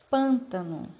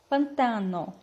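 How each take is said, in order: First: The stress is on the first syllable. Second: The stress is on the second syllable. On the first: This is the Portuguese form. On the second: This is the Spanish form.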